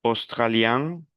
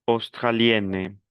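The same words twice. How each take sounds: First: "Australien" slowly, rising to a nasal vowel; model pronunciation. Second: "australienne" slowly, falling to a clear n; model pronunciation. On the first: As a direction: end "Australien" through the nose. ("Australien" lento, con final nasal) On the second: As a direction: sound the n in "australienne". ("australienne" lento, con la n clara) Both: Shown as a demonstration. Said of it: "Repete la pronunciación".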